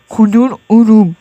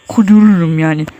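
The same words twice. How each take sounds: First: "Kudururum" slowly broken into syllables; deliberate, stretched "Kudururum". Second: Said in the usual way. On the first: Real, not acted. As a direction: spell out "Kudururum" in slow, separate beats. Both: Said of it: "Mükemmel heceleme".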